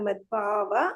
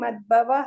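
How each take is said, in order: First: The vowel after bh is long. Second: The vowel after bh is short. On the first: The speaker calls it right. "ದೀರ್ಘಗಳು" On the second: The speaker calls it wrong. "ಮದ್ಭವ ಇಲ್ಲ"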